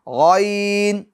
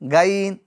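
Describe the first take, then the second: First: The letter is pronounced heavy, tongue raised back. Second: The letter is pronounced thin, tongue kept low. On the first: The speaker calls it right. "नहीं बारीक नहीं" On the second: The speaker calls it wrong. "ये बारीक हो जाएगा"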